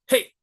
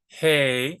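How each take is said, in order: First: The word is clipped short. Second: The word is drawn out long.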